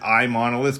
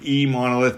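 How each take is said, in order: First: The name begins with an 'eye' sound. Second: The name begins with an 'ee' sound. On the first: "I didn't want to pronounce it iMonolith because we're not an Apple product" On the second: "it wasn't like eMonolith because we weren't putting an E in front of it"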